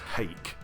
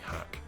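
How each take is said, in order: First: The vowel is long, as in 'bake'. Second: The vowel is short, as in 'back'. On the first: The speaker calls it wrong. "mentally I always read it as Hake" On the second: The speaker calls it right. "I think it's meant to be Hack"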